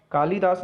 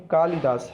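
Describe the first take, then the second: First: कालिदास as "kaa-lee-daas", pitched higher; wrong long middle vowel. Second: कालिदास as "kaa-li-daas"; short middle vowel. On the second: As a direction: keep the "li" in कालिदास brief. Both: Shown as a demonstration. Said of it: "ला पर छोटी की मात्रा".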